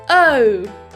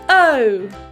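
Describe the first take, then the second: Both takes have the same delivery.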